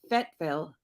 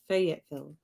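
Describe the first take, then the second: First: The name is squeezed into two syllables. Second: The name is said with all three syllables. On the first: This is how it is said locally. "Fayetteville instead of saying" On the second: This is the usual way of saying it. "instead of saying Fayetteville"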